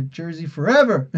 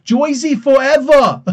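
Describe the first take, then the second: First: Lightly put-on superhero rallying call; a hint of a movie-hero impression; Black Panther. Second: Loud, high, drawn-out Brooklyn shout; exaggerated Brooklyn accent. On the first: Reading a viewer's Jersey slogan, light Black Panther imitation. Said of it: "Black Panther voice". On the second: Shown as a demonstration. Joking about how Jersey should be said, exaggerated Brooklyn accent. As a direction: belt it out in hammed-up Brooklynese, "Joisey fo-evva". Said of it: "You gotta do it in the Brooklyn".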